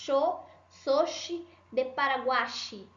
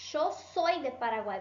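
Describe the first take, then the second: First: The final y of Paraguay sounds like 'shee'. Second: The final y of Paraguay sounds like 'ee'. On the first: The speaker calls it wrong. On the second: The speaker calls it right.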